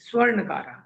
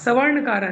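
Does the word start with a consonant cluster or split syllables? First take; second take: consonant cluster; split syllables. First: The opening s and v form one cluster. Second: A vowel breaks up the opening s and v. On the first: The speaker calls it right. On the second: The speaker calls it wrong. "सवर्णकारा नहीं"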